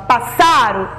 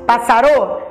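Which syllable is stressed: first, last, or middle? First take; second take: middle; last. First: The stress is on the middle syllable. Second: The stress is on the last syllable. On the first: "Foi a do meio, a penúltima? Passaro? Não" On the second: "foi a última sílaba mais forte? Passarô? Não"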